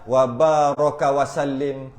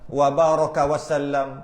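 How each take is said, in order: First: The final word ends with an 'im' sound. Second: The final word ends with an 'am' sound. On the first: The speaker calls it wrong. "Ada yang salah" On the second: The speaker calls it right. "Wasallim dengan wasallam"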